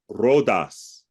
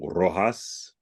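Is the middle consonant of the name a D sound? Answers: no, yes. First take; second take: yes; no. First: The middle consonant is a D sound. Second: The middle consonant is not a D sound. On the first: The speaker calls it right. "it's a D, so it's Rodas" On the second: The speaker calls it wrong. "I've been pronouncing it wrong"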